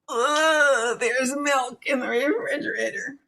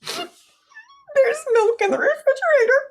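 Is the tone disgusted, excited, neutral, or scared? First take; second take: disgusted; scared. First: It is said in a disgusted tone. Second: It is said in a scared tone.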